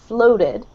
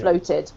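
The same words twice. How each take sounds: First: It is said with an American accent. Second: It is said with a British accent. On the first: "So with an American accent" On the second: "or I say it ... I have a British accent"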